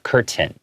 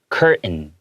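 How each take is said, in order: First: The middle T sound is clearly pronounced. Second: The middle T sound is swallowed, nearly silent. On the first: "instead of" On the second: "we kind of swallow it. We make it silent. We go"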